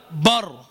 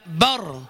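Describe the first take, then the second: First: "بر" as thick "bor"; heavy B. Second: "بر" with light, fronted vowel; thin B. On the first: Teacher showing what it is not, heavy B. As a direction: fatten the vowel of بر. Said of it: "وليس بر". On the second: Teacher giving the correct syllable, thin B. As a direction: say بر thin, not fattened. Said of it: "هي بر". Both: Shown as a demonstration.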